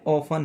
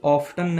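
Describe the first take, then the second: First: The t sound is silent in the middle. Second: The t sound is pronounced in the middle. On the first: The speaker calls it right. "इसमें टी जो है वो silent है" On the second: The speaker calls it wrong. "ये ऑफ्टन नहीं है"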